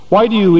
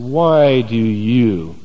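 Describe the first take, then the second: First: It is said in a plain, neutral tone. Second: It is said with a disgusted, scornful tone. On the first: It is a simple question. The speaker calls it wrong. "They didn't say it like that" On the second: The askers look down on the company kept. The speaker calls it right. "That was their attitude. Ugh, yuck"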